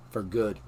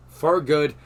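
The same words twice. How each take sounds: First: Said in the usual way. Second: "For good" repeated louder, with "For" stressed; emphatic repeat. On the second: Real, not acted. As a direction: hit "For good" hard and firm.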